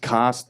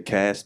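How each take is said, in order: First: It is said with an English pronunciation. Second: It is said with an American pronunciation.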